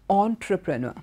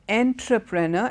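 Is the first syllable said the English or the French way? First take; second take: French; English. First: The first syllable is said the French way. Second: The first syllable follows the English spelling. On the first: The speaker calls it right. "in French that's how it's pronounced" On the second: The speaker calls it wrong. "you would assume uh, it is pronounced entrepreneur, but it's not entrepreneur"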